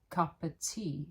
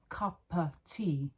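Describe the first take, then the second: Both takes have the same delivery.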